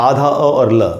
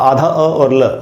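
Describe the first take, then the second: Both takes have the same delivery.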